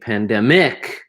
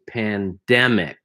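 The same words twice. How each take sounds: First: The stress is not on the middle syllable. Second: The stress is on the middle syllable. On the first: The speaker calls it wrong. "instead of saying pandemic" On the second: The speaker calls it right. "So the stress is in the middle of the word here"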